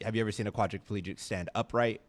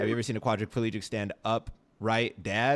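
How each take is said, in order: First: It runs on with no pause after 'up'. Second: There is a pause after 'stand up'.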